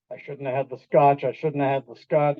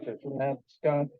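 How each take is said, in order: First: Low, worried repeating to oneself; a driver's guilty panic, voiced low; nervous self-reproach. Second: Low and much softer, trailing off; fading nervous self-reproach. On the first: Driver seeing police lights in the mirror, low nervous repeating. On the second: Retold or imitated. Driver seeing police lights in the mirror, fading low worried repeat. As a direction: let the worry fade to almost nothing. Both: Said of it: "You see that in the rearview mirror".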